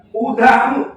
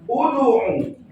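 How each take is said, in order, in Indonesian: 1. Pantulan setelah d condong ke a. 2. Pantulan setelah d condong ke u. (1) "bukan bukan uda'u" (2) "Kalau doma, udu'u"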